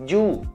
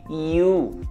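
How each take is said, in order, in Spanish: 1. Empieza con una consonante más dura, como la "y" del español. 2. Empieza con un sonido suave tipo vocal, como una "i". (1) "no es you" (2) "La Y tiene sonido I siempre"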